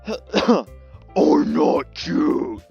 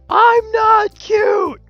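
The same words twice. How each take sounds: First: It is screamed in a harsh death-metal growl. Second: It is said in an ordinary speaking voice.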